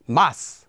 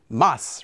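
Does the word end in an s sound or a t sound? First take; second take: s sound; s sound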